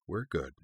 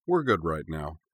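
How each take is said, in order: First: Soft, soothing reassurance; hushed and calming; low, soothing. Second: Said in the usual way. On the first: A narrator's reading. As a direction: soothe them gently, voice dropped soft. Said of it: "in a low and soothing tone". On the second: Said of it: "then repeated".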